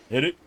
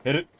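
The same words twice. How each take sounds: The two takes are said the same way.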